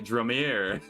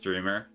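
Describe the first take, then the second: First: The name is said with an 'oh' sound. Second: The name sounds like the word dreamer. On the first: "the quirky way, like phonetically" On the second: "like one who dreams"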